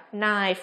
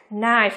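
First: Said in the usual way. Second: Knife with an audible K before the N; K pronounced. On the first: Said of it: "mà chỉ là gì thôi nhỉ?". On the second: Shown as a demonstration. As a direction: say "knife" wrongly as "k-nife". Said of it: "Không phát âm là". (đọc sai "knife", bật rõ âm k trước n)

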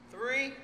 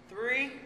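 Both takes have the same delivery.

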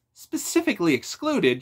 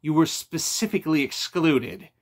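First: High, loud, indignant disbelief; rising toward an outburst; voice ramping up. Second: SPECIFICALLY EXCLUDED said firmly and louder; "specifically excluded" landed with emphasis, falling at the end; emphatic bad news. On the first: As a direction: throw "Specifically excluded?" back, pitched up sharply. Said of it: "his voice ramping up". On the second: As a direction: deliver "specifically excluded" as a firm, weighty statement. Friend breaks news of exclusion. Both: A narrator's reading.

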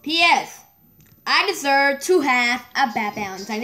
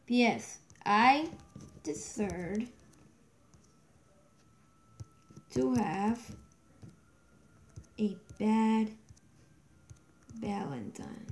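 First: Said in the usual way. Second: Slow, broken word by word, trailing softer; dictating while typing. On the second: Real, not acted. Player typing a message about a bad Valentine, dictating slowly. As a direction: murmur it in pieces with long pauses.

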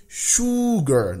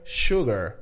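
First: Sugar drawn out slowly, high; the sugar students should avoid, slowly; wrong sugar. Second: Sugar said slowly with sh start; correct sugar. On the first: Teacher mocks the wrong sugar for class. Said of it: "nada de sugar". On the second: Teacher models the right sugar for class. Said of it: "É sugar". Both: Shown as a demonstration.

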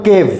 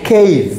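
First: "কেভ" with a pure e vowel; unaspirated k in "কেভ", no glide; old habitual pronunciation. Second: "কেভ" with an aspirated k and ei glide; correct pronunciation. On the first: Teacher shows what we used to say, "কেভ" without diphthong. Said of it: "আমরা বলতাম কেভ". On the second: Teacher models cave for the class, "কেভ" as kheiv. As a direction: stretch "কেভ" through an ei diphthong. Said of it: "এটা হবে". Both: Shown as a demonstration.

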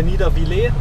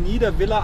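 First: Niedervillers ending in "-vilé"; French-style pronunciation. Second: Niederviller ending in a short German "-villa"; German pronunciation. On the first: Driver offering the other name for the Alsatian town, Niedervillers said French-style. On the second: Driver unsure of the Alsatian town's name, Niederviller said German-style. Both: Shown as a demonstration. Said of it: "wie man's jetzt richtig ausspricht".

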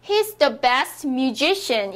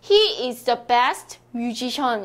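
First: "musician" with a strong middle syllable, myu-ZI-shn; stress before -cian. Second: "musician" said Korean-style as "myu-ji-shyon"; mispronounced musician. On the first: Teacher gives the corrected sentence, "musician" stressed on ZI. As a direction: punch ZI in "musician", reduce the ending. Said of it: "션 앞에는 강세를 넣는 거예요". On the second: Teacher shows students the friend's mistake, "musician" as myu-ji-shyon. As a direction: say "musician" with evenly weighted syllables, myu-ji-shyon. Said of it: "이렇게 해주시면 안 됩니다". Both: Shown as a demonstration.

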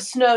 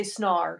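First: Said in the usual way. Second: "snar", an R tacked on for the O; "snar" with a hard R ending; snow as "snar". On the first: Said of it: "so instead of snow". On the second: Shown as a demonstration. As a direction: say snow as "snar", Aussie attempt. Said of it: "you'd say snar".

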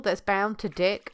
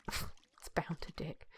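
First: Said in the usual way. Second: Whispered, slow and very soft; amused whisper. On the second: Real, not acted. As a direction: repeat it under your breath, savouring the joke. Joke repeated under the breath.

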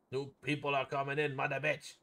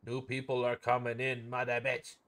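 Both takes have the same delivery.

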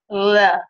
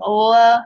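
First: "la" made with the tongue tip pushed out between the teeth; a tongue-thrust "la" with the tongue poking through the teeth; interdental l. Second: Said in the usual way. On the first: Shown as a demonstration. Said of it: "a child with tongue thrust". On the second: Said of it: "where instead of saying la".

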